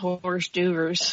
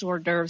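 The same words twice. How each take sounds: First: It is said as spelled, like 'horse duvers'. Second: It is said the French way, like 'or-durvs'. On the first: The speaker calls it wrong. "I called it hors d'oeuvres for years" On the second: The speaker calls it right. "I didn't know that it was hors d'oeuvres"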